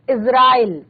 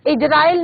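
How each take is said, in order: First: इजराइल with ज as z, Izrail; nukta z sound. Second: इजराइल with a hard j, Ijrail; wrong j sound. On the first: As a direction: say इजराइल with a buzzing z. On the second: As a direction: say इजराइल with j in place of z. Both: Shown as a demonstration. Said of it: "इजराइल नहीं पढ़ेंगे इसको".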